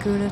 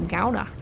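First: The first syllable rhymes with goo. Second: The first syllable rhymes with cow. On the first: The speaker calls it wrong. "we've been walking around like a douche" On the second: The speaker calls it right. "Like Chowda"

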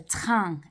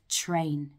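First: The vowel is a French nasal vowel. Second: The vowel is an oral English vowel. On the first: "we also hear it in AIN" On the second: "instead of"

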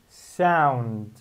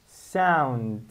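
The two takes are said the same way.

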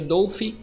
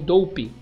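First: The final consonant is an F sound. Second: The final consonant is a P sound. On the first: "não sei se o PH tem som de F" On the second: "ou de P mesmo"

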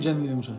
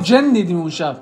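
First: The n sound is short, single. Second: The n sound is held long, doubled. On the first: The speaker calls it wrong. "نمیگیم جن دیدیم اون شب" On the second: The speaker calls it right. "آقا جن دیدیم اون شب"

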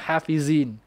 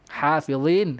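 First: The first h sound is light and plain. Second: The first h sound is heavy and pressed. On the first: The speaker calls it wrong. "Jangan hafizin" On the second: The speaker calls it right. "Ha tebal tekan"

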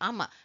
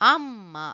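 First: The m sound is short and single. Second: The m sound is held long and doubled. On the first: "without ಒತ್ತಕ್ಷರ how we have to read? ಅಮ" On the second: "with ಒತ್ತಕ್ಷರ we have to read amma. We have to put little pressure"

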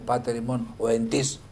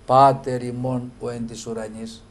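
First: The article 'της' carries a strong stress. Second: The article 'της' is unstressed and flows onward. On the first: The speaker calls it wrong. "δεν τονίζουμε το άρθρο αυτό της. Δεν λέμε" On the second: The speaker calls it right. "Πάει όλο πέρα-πέρα, αυτός είναι ο τόνος"

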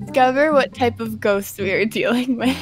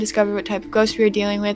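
First: It is read slowly. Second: It is read fast.

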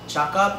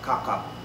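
First: The word begins with a ch sound. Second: The word begins with a k sound. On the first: This is how it is said in Malaysia. "our C doesn't sound CH" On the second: This is how it is said in the Philippines. "cakap in the Philippines is gonna be kakap"

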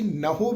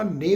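First: The word ends with an 'ho' sound. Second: The word ends with an 'e' vowel. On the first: "ਉਹਨੂੰ ਅਸੀਂ ਨਹੋ ਵੀ ਨਹੀਂ ਪੜ੍ਹਨਾ" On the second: "ਨੇ ਵੀ ਨਹੀਂ ਪੜ੍ਹਨਾ"

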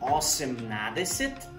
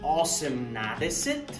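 First: Every syllable of the full form is said. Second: The same.

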